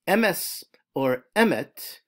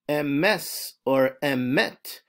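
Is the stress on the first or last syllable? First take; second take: first; last. First: The stress is on the first syllable. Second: The stress is on the last syllable. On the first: The speaker calls it wrong. "on the first syllable, which is called mila'el" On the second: The speaker calls it right. "which is known as milara when it's on the last syllable"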